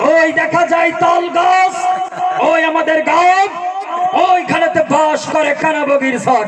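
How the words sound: It is shouted in a political rally style. "রাজনৈতিক মঞ্চে দাঁড়িয়ে অনেকে গলা ফাটিয়ে বক্তব্য দেয়"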